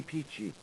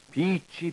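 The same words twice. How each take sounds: First: Soft falling echo. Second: High bright call. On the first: Echo of proclaimed word. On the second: Proclaimed word, said twice. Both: Acted.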